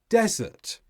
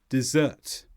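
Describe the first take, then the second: First: The stress is on the first syllable. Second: The stress is on the second syllable. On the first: It is used as a noun. "When they are noun forms, they tend to be stressed on the first syllable" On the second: It is used as a verb. "Desert becomes dessert"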